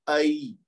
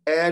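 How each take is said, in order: First: The vowel glides from a toward i. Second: The vowel is one steady e sound. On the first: The speaker calls it right. "बल्कि कैसे पढ़ना है? आई" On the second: The speaker calls it wrong. "इसको ए नहीं पढ़ना"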